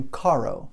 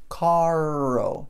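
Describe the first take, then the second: First: Said in the usual way. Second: "Caro" with the middle R held long; exaggerated, drawn-out R inside "Caro"; super strong R. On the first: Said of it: "no meio da palavra". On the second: Shown as a demonstration. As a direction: stretch the English R between the vowels of "Caro". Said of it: "R, super forte".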